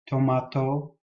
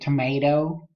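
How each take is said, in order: First: It is said in an Australian accent. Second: It is said in an American accent. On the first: "sounds more like the Australian tomato" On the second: "it's not like the American tomato"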